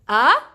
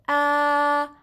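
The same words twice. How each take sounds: First: The pitch rises from low to high. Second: The pitch stays level and flat. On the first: "you go from down and you go up with your voice" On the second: "you go straight with your voice"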